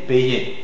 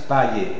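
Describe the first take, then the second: First: The first vowel is an 'ay' sound. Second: The first vowel is an 'ah' followed by y. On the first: The speaker calls it right. "es EI, payer" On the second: The speaker calls it wrong. "No es A Y, no es payer"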